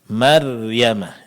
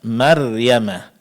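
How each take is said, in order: Both takes have the same delivery.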